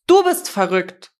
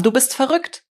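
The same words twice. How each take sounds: First: Louder, heavy stress on the first word; shouted retort. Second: Higher, heated, rising at the end; angry accusation. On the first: Woman yelling back at him in tears, shouted retort. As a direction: throw the accusation back, leaning on "Du". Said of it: "schrie sie ihn an". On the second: Man to the woman pursuing him, angry accusation. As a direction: fling the insult, pitched up to the last word. Quarrel, accusation before she returns it. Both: A narrator's reading.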